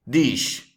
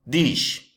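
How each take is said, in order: No difference in how they are said.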